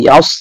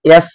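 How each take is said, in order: First: The s sound is heavy and full. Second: The s sound is light and thin. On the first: The speaker calls it right. "ইয়াস সদকে ধরবে মোটা হবে" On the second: The speaker calls it wrong. "ইয়াস এমন বলা যাবে না"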